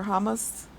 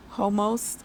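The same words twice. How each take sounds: First: "Homos" with open first vowel, HAH-must; "Homos" tried out as HAH-must; alternative pronunciation. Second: "Homos" with long O in both syllables, HOH-mohst; "Homos" tried out as HOH-mohst; trying a pronunciation. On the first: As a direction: say "Homos" as HAH-must, second syllable reduced. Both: Shown as a demonstration. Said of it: "I don't know how to pronounce it".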